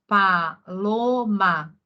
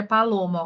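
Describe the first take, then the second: First: Paloma drawn out very slowly, syllable by syllable; teacher slowly sounding out Paloma; slow reading aloud. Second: Said in the usual way. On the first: Shown as a demonstration. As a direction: read Paloma slowly, as if sounding out a child's writing. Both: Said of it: "ó".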